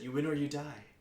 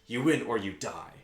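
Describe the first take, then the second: First: It is delivered flatly, as plain fact. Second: It is delivered with strong intensity.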